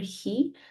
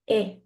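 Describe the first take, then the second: First: The word starts with an audible h sound. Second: The word starts directly with the vowel. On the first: The speaker calls it wrong. "do not pronounce the H" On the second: The speaker calls it right. "the H is silent"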